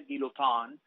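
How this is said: The name is said with a French pronunciation. The speaker calls it right. "a mi menos sería guillotin, en francés"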